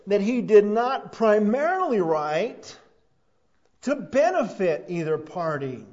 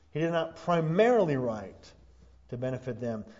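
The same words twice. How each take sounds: First: "primarily" drawn out, higher and louder; stress on primarily. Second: "primarily" marked but only slightly raised; a gentler second push on "primarily"; lighter stress on primarily. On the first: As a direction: lean hard on "primarily", slowly and loudly. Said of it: "I stress the word primarily". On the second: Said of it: "let me stress the word again". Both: Shown as a demonstration.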